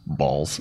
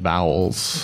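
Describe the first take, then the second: First: It is said as one syllable without a w sound. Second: It is said as two syllables with a w sound. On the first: This is how other people at the event said it. The speaker calls it wrong. "just hearing people chat and just kind of like balls" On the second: This is the proper way to say the name. The speaker calls it right. "You really should pronounce it properly"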